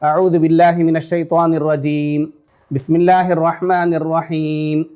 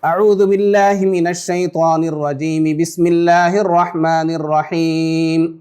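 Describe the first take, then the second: First: There is a pause between the two phrases. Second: The two phrases run together without a pause. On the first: "अऊज़ु बिल्लाहि मिनश शैतानिर रजीम पढ़ करके रुक जाएं" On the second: "अऊज़ु बिल्लाह को बिस्मिल्लाह के साथ मिला करके पढ़ें"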